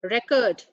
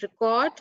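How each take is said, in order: First: "Record" stressed up front, REK-ord; noun record. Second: "record" stressed at the end, ri-KORD; verb record. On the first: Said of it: "it's a noun". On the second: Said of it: "record is a verb". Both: Shown as a demonstration.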